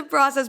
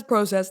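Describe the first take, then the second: First: Process with an open vowel, PRAH-sess; own pronunciation. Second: Process with a long O, PROH-sess; British pronunciation. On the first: Shown as a demonstration. Guest restarts her sentence in her own way, American "process". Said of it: "I say process". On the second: Acted. Guest corrects herself to the host's way, British long-O "process". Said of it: "your accent made me say process".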